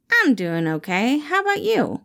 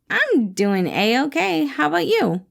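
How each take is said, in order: First: Lightly voiced guarded employee; a hint of Remus, hiding his feelings. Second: Higher, slow, overdone cheerful reply; forced cheer. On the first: Remus answers his boss, lightly voiced and guarded. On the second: Acted. Remus covers his mood for his boss with forced cheer. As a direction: fake being fine.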